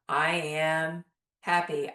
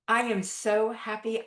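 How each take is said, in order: First: It is said flatly, by rote, without feeling. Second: It is said with feeling and pep in the voice.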